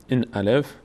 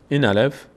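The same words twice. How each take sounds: The two takes are said the same way.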